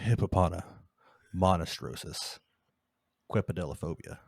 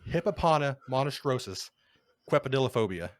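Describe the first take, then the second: First: The long word is said at a slower pace. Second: The long word is said at a quicker pace.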